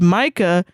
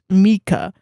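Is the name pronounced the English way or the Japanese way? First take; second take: English; Japanese. First: The name is given an English pronunciation. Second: The name is given a Japanese pronunciation. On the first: "in English, ... Sometimes pronounced as Micah" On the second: "while in Japanese, it could be pronounced Mika"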